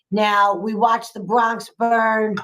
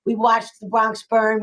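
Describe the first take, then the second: First: "watched" leaned on, slow and weighty; slow emphasis. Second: Said in the usual way. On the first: Real, not acted. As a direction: let "watched the Bronx burn" land slowly.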